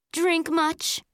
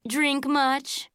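First: High, sneering little taunt; snotty. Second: Sneering little taunt, milder; a lighter mean-girl sneer; snotty. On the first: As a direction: sneer it like a mean girl. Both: A narrator's reading. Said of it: "in a snotty voice".

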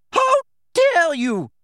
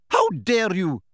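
First: Very high, loud, slow stretched shout; furious shout. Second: Shouted. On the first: McGonagall reaching the attackers, very high furious shout. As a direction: scream it with full outrage. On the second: McGonagall running to Hagrid, indignant shout. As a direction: call it out while running. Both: A narrator's reading. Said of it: "the figure shouted".

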